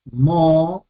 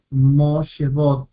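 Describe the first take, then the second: First: "moshevot" muy espaciado, mo... she... vot; separado en sílabas. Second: Said in the usual way. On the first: Shown as a demonstration. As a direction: deja una pausa larga tras cada sílaba de "moshevot". ("moshevot" dividido en tres sílabas) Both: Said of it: "con su propia sílaba".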